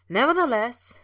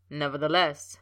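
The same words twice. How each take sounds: First: Much higher, louder teasing "Nevertheless"; Potter's playful echo, far higher and louder; mocking echo. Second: Lower, louder stiff Snape opener. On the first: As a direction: parrot his word back to tease him. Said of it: "he echoed". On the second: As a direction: start a stern objection. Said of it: "Snape began". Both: A narrator's reading.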